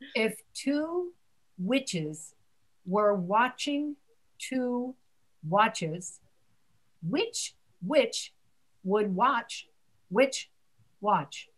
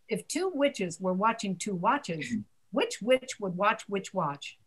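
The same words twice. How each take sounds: First: The sentence is spoken slowly and carefully. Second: The sentence is spoken at a faster pace. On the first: "let me say it slowly" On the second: "Now say it faster"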